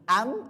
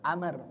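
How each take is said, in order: First: The word ends without an r sound. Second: The word ends with an r sound. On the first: The speaker calls it wrong. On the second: The speaker calls it right.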